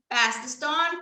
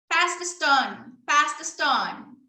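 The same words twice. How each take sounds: First: Said in the usual way. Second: Put-on slow and clear for a child; slow command. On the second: Shown as a demonstration. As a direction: Pass stressed, said slowly. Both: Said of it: "demo for a child".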